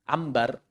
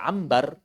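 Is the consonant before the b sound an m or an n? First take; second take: m; m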